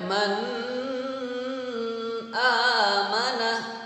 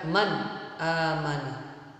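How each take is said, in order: First: The n sound is blurred, not clearly pronounced. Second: The n sound is pronounced clearly and directly. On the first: The speaker calls it wrong. "jangan sampai dibaca man amana, nggak boleh" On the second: The speaker calls it right. "Harus dibaca man amana ... harus dibaca jelas"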